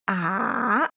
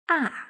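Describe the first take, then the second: First: The pitch dips low and then rises. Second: The pitch falls sharply from high. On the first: "falling rising tone or low tone" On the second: "falling tone or high falling tone"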